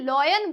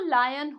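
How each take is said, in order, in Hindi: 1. पहला स्वर 'aw' जैसा सुनाई देता है। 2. पहला स्वर 'eye' जैसा सुनाई देता है। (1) "वो लॉयन नहीं होता" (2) "वो लायन होता है"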